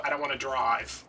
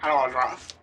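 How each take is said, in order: First: Said in the usual way. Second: Whiny. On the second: Retold or imitated. Repeats refusal, louder put-on voice.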